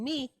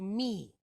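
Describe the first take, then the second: First: The vowel is said short. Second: The vowel is said drawn out long.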